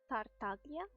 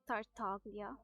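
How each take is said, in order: First: It is said in a put-on character accent. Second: It is said in a plain everyday accent. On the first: "if I were to pronounce it as, as Dottore, I would say it like" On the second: "usually I pronounce it as Tartaglia"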